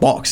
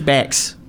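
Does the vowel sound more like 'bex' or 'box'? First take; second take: box; bex. First: The vowel is open and back, like 'box'. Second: The vowel is raised and front, like 'bex'. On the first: The speaker calls it wrong. "You're going the wrong way. You're going box. It's not box" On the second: The speaker calls it right. "It's Bex"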